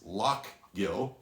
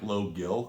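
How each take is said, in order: First: The first syllable is said as 'loch'. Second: The first syllable is said as 'low'. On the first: The speaker calls it right. "but it is Lochgill" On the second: The speaker calls it wrong. "it looks like Low Gill"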